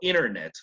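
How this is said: The t after the n is dropped. "Para un gringo"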